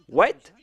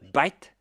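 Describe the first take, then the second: First: The word starts with a w sound. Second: The word starts with a b sound.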